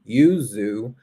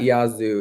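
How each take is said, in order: First: The first syllable sounds like 'yoo'. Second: The first syllable sounds like 'yah'. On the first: The speaker calls it right. "it's yuzu" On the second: The speaker calls it wrong. "I'm saying it wrong. It's not yazoo"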